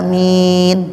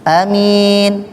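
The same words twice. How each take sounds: First: Both vowels are held long. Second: Only the second vowel is held long. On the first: "Lebih baik panjang aminnya" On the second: "a-nya pendek, min-nya panjang"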